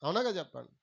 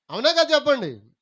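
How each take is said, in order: First: Said in the usual way. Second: Loud, high call for an answer; loud demand. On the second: Real, not acted. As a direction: press the congregation to respond. Repeats question, demanding louder response. (గట్టిగా గొంతెత్తి జవాబు అడుగుతూ)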